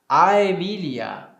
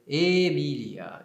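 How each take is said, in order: First: The first vowel is an 'a-e' diphthong. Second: The first vowel is a plain 'e'. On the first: This is the classical Latin pronunciation. "no latim clássico, nós vamos dizer Aemilia" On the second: This is the ecclesiastical Latin pronunciation. "na pronúncia eclesiástica, nós vamos dizer Emília"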